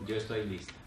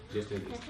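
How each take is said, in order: First: Soft, low, calm acceptance; dying mother, calm. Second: Even softer, lower echo; softer repeat. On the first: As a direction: say it quietly, at peace. (voz baja y serena de madre que acepta morir) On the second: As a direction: repeat it barely above a breath. (repetición aún más baja y serena) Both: Retold or imitated. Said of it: "me dijo".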